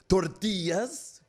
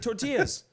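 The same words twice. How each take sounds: First: It is said with an exaggerated foreign-sounding pronunciation. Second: It is said with a plain, everyday English pronunciation. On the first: The person is trying too hard to sound authentic. The speaker calls it wrong. "all of a sudden like tortillas" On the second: The person is just talking normally. The speaker calls it right. "Just say tortillas"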